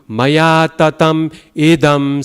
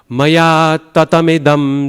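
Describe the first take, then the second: First: The sound before idam is held long. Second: The sound before idam is kept short, without pausing. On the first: The speaker calls it wrong. "you're lengthening a sound that is not lengthened" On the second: The speaker calls it right. "So you don't have to pause. You don't have to wait"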